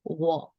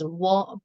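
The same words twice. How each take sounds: First: The word is said on a falling tone. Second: The word is said on a level tone. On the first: It means yes. "symbolizing the falling tone" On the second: It means five. "without any tones, or we can say it's the even tones"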